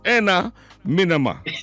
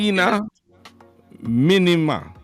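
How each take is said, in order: First: The first word starts with an 'eh' vowel. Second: The first word starts with an 'ee' vowel. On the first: The speaker calls it right. "So it's Enna" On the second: The speaker calls it wrong. "Close, but it's Enna"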